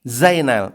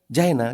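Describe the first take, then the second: First: The name begins with a buzzing z sound. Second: The name begins with a j sound. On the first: The speaker calls it right. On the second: The speaker calls it wrong.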